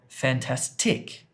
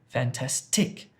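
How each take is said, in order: The two takes are said the same way.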